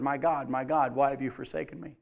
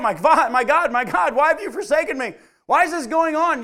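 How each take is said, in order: First: Low, soft and subdued, a hint of anguish; quiet cry from the cross. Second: Loud, higher anguished crying out. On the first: Passerby overhearing Jesus on the cross, low soft quiet voice. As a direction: let it drift past like something overheard, low and soft. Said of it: "you walk by and heard". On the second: Retold or imitated. Preacher voicing Jesus crying out on the cross, loud anguished cry. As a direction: cry it out to heaven, louder and higher. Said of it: "Jesus cried out".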